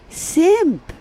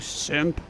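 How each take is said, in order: First: It is said in a sweet, high-pitched voice. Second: It is said in a harsh, normal-pitched voice. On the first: It is meant playfully rather than as an insult. "Say it with a sweet voice" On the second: It is meant as an insult. "As opposed to"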